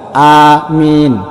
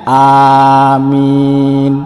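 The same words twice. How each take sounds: First: The first vowel is long, the second short. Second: Both the first and second vowels are long. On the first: It means asking for protection and security. The speaker calls it wrong. "huruf alifnya itu panjang dan mimnya itu pendek" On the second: It means asking God to grant the prayer. The speaker calls it right. "alifnya panjang, mimnya panjang, ini baru benar"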